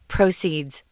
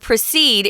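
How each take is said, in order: First: The stress is on the first syllable. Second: The stress is on the second syllable. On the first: It is the noun meaning money raised. "The accent comes on the first syllable" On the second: It is the verb meaning to go on. "is the verb"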